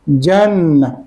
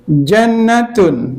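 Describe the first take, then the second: First: The word ends with a soft h sound. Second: The word ends with a full t-n ending. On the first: The reciter stops on this word. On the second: The reciter continues without stopping.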